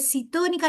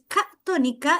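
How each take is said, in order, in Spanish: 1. La palabra empieza con la sílaba 'ci'. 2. La palabra empieza con la sílaba 'ca'. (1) "llega y dice citónica, no" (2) "es catónica"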